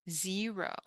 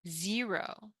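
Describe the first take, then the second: The two takes are said the same way.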